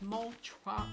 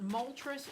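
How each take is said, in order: First: The name ends with an open vowel. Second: The name ends with an 'ess' sound. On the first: The speaker calls it right. "it's Moltra" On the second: The speaker calls it wrong. "it's not Moltres"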